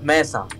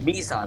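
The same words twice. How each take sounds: First: "Mesa" said as MESS-a; first vowel of "Mesa" as in "mess"; contrasted pronunciation. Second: "Mesa" said as MEE-sa; first vowel of "Mesa" as in "see"; pronunciation demo. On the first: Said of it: "not Mesa". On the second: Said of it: "It is pronounced Mesa". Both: Shown as a demonstration.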